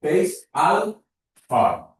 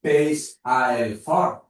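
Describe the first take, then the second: First: The words 'a' and 'el' merge into 'al'. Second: The words 'a' and 'el' are said separately. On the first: The speaker calls it right. "a i el es junten i formen al" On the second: The speaker calls it wrong. "De tal manera que jo dic peix a el forn"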